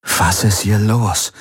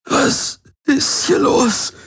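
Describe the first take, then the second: First: Slow, strained question; choked up. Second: Halting, high, breathy strain; agonized. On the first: Garland asks as melancholy hits him, choked up. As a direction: ask it slowly through a tightening throat. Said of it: "schnürte ihm die Kehle zusammen". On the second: Garland begs the Helix for answers, in agony. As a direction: force out each word slowly through pain. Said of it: "Jedes Wort war eine Qual". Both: A narrator's reading.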